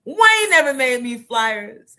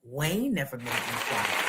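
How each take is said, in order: First: Loud repeat. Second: Muttered aside. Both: Real, not acted.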